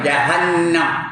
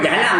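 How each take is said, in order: First: The word is pronounced the original Arabic way. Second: The word is pronounced the usual Malay way. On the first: The speaker calls it right. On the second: The speaker calls it wrong.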